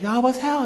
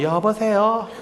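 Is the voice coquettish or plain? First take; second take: coquettish; plain. First: It is said in a sweet, coquettish voice. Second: It is said in a plain, blunt voice. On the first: The caller is someone she likes. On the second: The caller is just family.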